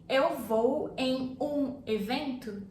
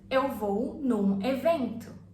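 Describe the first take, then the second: First: The words 'em um' are said in full. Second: The words 'em um' merge into one syllable. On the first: "instead of you saying" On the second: "Em plus um becomes num"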